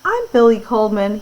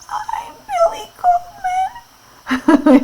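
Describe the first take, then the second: First: It is said in a normal voice. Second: It is said in a squeaky voice.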